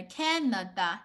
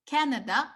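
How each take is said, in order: First: Canada broken evenly into Can-na-da; Canada in three beats to echo 加拿大; syllable by syllable. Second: Said in the usual way. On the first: Shown as a demonstration. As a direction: sound out Canada with a full final "da". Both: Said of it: "You see, really similar".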